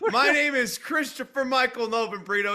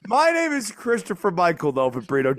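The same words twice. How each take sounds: First: It is said in a plain, everyday voice. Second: It is said in a put-on announcer voice.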